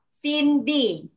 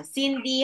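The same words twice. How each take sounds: First: "Cindy" split into two distinct beats; syllable by syllable. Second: Said in the usual way. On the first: Shown as a demonstration. Teacher giving two-syllable example, "Cindy" syllable by syllable. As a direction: leave a gap between the syllables of "Cindy". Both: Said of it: "Cindy has two syllables".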